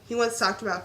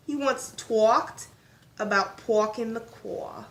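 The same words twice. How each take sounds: First: Said in the usual way. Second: "talked" drawn out with a rounded aw, slowly; drawled vowels. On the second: Pretend. Joking after stumbling on the word, "talked" slow and drawled. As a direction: stretch the vowel in "talked" like "tawked".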